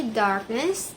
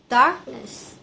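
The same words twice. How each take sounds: First: Said in the usual way. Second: "darkness" as DARK-ness, falling at the end; stress on first syllable. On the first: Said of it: "Number three". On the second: Shown as a demonstration. Student shows where stress stays, first-syllable stress in "darkness". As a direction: hit DARK in "darkness", let -ness fall away. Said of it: "It stays on the first syllable".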